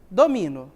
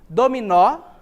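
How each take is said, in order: First: The stress is on the middle syllable. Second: The stress is on the last syllable. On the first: It means I dominate. "a sílaba tônica está no mi" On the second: It names the game of dominoes. "A que é pronunciada com mais força é o nó"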